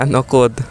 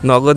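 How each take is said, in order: First: The middle consonant is a voiceless k sound. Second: The middle consonant is a voiced g sound. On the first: The speaker calls it right. "হিন্দিতে নকদ" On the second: The speaker calls it wrong. "নগদ না"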